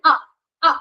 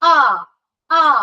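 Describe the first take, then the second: First: The vowel sound is held only briefly. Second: The vowel sound is drawn out longer. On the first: "it's എ short vowel" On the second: "it's എ long vowel"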